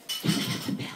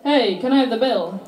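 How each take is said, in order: First: Whispered, barely voiced; too polite to call out; timid whisper. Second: Louder, direct request; just ask normally; plain call out. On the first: Polite English dad asking the waitress, a timid whisper. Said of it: "And he goes". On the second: Retold or imitated. Daughter showing how dad should have asked, louder and direct. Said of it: "Why didn't he just say".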